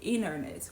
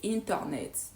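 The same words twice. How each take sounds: First: Sounds are reduced and run smoothly together. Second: Every sound is pronounced separately and carefully. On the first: The speaker calls it right. "they're gonna say internet" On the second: The speaker calls it wrong. "They won't say internet"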